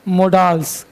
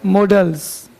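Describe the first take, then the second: First: मोडाल्स with a long aa, mo-DAALS; mispronounced modals. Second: मॉडल्स with a short open o and short a, MOD-dls; correct pronunciation. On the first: Teacher mimicking how UP students say मोडाल्स. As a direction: say मोडाल्स the UP way, stretching the aa. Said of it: "ए को आ पढ़ता है". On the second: Teacher showing students the right way to say मॉडल्स. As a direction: say मॉडल्स crisply, no long aa. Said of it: "इसको मोडाल्स नहीं पढ़ेंगे". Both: Shown as a demonstration.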